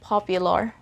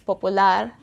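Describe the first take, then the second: First: The second syllable has a 'pyu' sound. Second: The second syllable is a plain 'pu' sound. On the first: "in English it's popular" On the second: "If in Tagalog it's popular"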